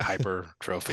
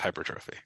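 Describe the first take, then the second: First: The word is said slowly and drawn out. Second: The word is said quickly at normal speed. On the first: The speaker calls it wrong. "why are we taking three seconds between words here to say it?" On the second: The speaker calls it right. "no, no, no. It's just hypertrophy"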